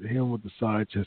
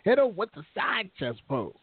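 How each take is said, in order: First: It is said in his normal voice. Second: It is said imitating Leo Russ's voice.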